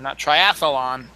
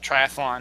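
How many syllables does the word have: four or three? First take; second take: four; three. First: The word is said with an extra fourth syllable. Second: The word is said with three syllables. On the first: The speaker calls it wrong. "We're all sticking another syllable in that doesn't need to be there" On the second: The speaker calls it right. "It's three syllables"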